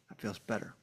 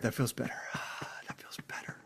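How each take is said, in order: First: Said in the usual way. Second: Breathy whisper after a sigh; whispered relief. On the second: Real, not acted. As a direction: let it out in a whisper.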